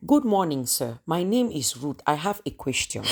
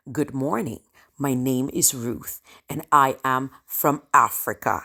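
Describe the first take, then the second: First: Put-on thick Cameroonian-accented English, polite classroom question; heavily accented student. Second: Lower, composed self-introduction as a leader; quiet pride. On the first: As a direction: play the accented newcomer addressing a professor. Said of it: "like you're not speaking English". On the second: Acted. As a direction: introduce yourself proudly and steadily to the room. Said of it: "The quiet pride".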